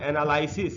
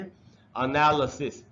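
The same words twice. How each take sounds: First: The vowel after the L is a full vowel. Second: The vowel after the L is a weak schwa. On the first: The speaker calls it wrong. "इस तरीके से नहीं पढ़ना चाहिए" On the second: The speaker calls it right. "ल के बाद आधा अ है, जिसको पढ़ेंगे एनालिसिस"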